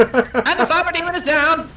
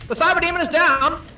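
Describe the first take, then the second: First: High booming vintage announcer call; old radio announcer. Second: Put-on old radio announcer. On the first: Pretend. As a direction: announce the knockout like forties radio. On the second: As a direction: repeat the call like forties radio. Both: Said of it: "an old-timey radio announcer in here to do this for us".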